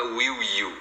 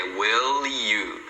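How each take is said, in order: First: WILL YOU with a swallowed L, "wiw you"; "will" ending in a W sound before "you"; unlinked words. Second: WILL YOU joined as "wil-lyou"; slow, lower demo carrying the L of "will" into "you"; linked L. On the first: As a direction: say "will you" without carrying the L over. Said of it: "Você nunca vai falar". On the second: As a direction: stretch "will you" with a clear L link. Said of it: "o som do L e emenda com o you". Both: Shown as a demonstration.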